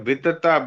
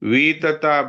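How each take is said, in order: First: The first vowel is kept short. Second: The first vowel is drawn out long. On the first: The speaker calls it right. "ये वी बड़ा नहीं है, छोटा है" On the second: The speaker calls it wrong. "वीतता ब्रह्मणो बोलते हैं, वीतता नहीं है"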